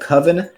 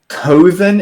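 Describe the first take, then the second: First: The word has its usual standard pronunciation. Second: The word has an altered, nonstandard pronunciation. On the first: The speaker calls it right. "instead of coven" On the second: The speaker calls it wrong. "coven instead of"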